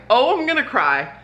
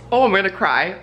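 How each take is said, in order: First: Higher, the voice lifting as real tears threaten; the second time, closer to breaking; about to cry. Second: A hint of tears welling up, still mostly steady; first warning that tears are coming, held back; tearing up. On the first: Repeating it as the emotion about the award rises, near tears. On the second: Telling viewers about a nomination, a touch choked up. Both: Real, not acted.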